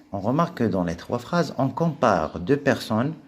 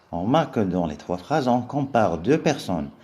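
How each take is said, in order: The two takes are said the same way.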